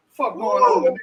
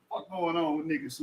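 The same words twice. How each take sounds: First: Much higher, squeaky, mocking take. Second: Said in the usual way. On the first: Asking chat what's wrong with people, in a squeaky mocking voice. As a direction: squeak it out like a joke.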